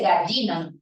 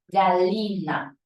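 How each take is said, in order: First: The double L sounds like a Y. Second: The double L sounds like a soft L. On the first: This is how Lima speakers say it. "No dice gallina" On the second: This is how Andean speakers say it. "como si fuera una L con una I muy suave"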